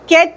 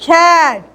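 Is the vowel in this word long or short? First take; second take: short; long. First: The vowel is short and less open. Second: The vowel is drawn out long and open. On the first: The speaker calls it wrong. "कैट नहीं बोलते" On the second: The speaker calls it right. "ए को आपको थोड़ा सा long खींचना है"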